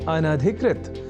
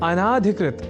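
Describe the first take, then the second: First: A short vowel follows the first syllable. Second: A long vowel follows the first syllable. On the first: The speaker calls it right. "वह शब्द है अनधिकृत" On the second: The speaker calls it wrong. "बोलने की भी प्रवृत्ति या कुप्रवृत्ति"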